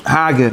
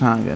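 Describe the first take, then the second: First: Hager, drawn out as the intended reading; intended pronunciation. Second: Hager as the reading to reject; rejected pronunciation. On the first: Teacher clarifying a Hebrew word to students, intended pronunciation. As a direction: say Hager slowly, as the corrected word. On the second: Teacher ruling out a misreading for students, rejected pronunciation. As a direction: say Hager as the mistaken word. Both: Shown as a demonstration. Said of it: "nicht Hager".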